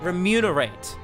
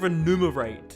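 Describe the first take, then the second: First: The m sound comes before the n sound. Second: The n sound comes before the m sound. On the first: The speaker calls it right. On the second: The speaker calls it wrong.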